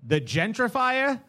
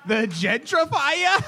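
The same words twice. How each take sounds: First: Put-on "The gentrifier?" with a Boston accent, slow and drawn out. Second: "The gentrifier?" shouted higher, slow and drawn out; hyped announcer shout. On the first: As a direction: read it like a Boston local. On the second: Acted. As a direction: hype it like a wrestling host. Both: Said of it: "too much of a Boston accent".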